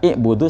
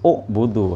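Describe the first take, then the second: First: The word starts with an i vowel. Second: The word starts with a u vowel. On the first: The speaker calls it wrong. "Jadi kalau dibaca i'budu salah ya" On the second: The speaker calls it right. "ya harus u'budu"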